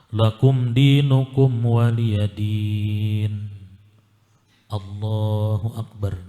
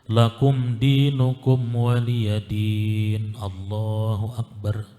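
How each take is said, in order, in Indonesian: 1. Ada jeda singkat sebelum Allahu akbar. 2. Allahu akbar langsung menyambung tanpa jeda. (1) "Jadi berdiam, ada jeda sekedar membaca subhanallah" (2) "Jangan disambung"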